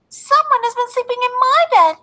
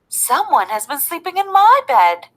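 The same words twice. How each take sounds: First: It is said in a tiny, small voice. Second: It is said in a medium-sized voice. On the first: "cried out in his wee little voice" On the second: "in her middle-sized voice"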